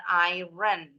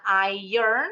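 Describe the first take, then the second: First: Iron misread as "EYE-ren", R sounded before the vowel. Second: Iron said "EYE-urn", silent R in the middle; iron as "ai-ern". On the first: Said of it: "bukan iron". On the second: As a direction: say iron as "ai-yern". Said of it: "Bacanya iron, bukan iron". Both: Shown as a demonstration.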